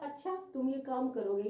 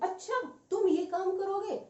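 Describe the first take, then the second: First: It is said flatly, with no surprise. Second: It is said with strong surprise. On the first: It is a plain question. "यहाँ कोई explanation वाला भाव नहीं है, विस्मय वाला भाव नहीं है।" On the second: The speaker is amazed the person will do it. "मेरा बोलने का तरीका चेंज हो गया है, हाँ भाव चेंज हो गए।"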